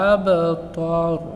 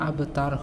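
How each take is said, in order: First: The t is heavy and emphatic. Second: The t is light and plain. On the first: The speaker calls it wrong. "এই তাকে আমরা তয়ে রূপান্তরিত করে পড়ি" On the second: The speaker calls it right. "কিন্তু এখানে আবতার হবে"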